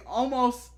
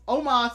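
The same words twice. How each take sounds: First: "Almost" said like the English word; mispronounced name. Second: "Omos" said as OH-moss, without L; corrected name. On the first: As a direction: say "Almost" with an L sound. Corrects a wrestler's name. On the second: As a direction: say "Omos" with a long opening O. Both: Shown as a demonstration.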